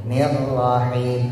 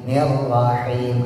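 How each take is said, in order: No difference in how they are said.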